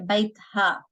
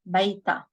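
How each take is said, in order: First: An h sound comes before the final a. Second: It ends in a long a with no h. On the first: This form is heard only sometimes. "Sometimes you will hear bait ha" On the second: This is the more common Lebanese form. "we don't uh, pronounce the ha ... just pronounce the long vowel alif"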